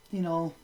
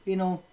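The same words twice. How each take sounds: The two takes are said the same way.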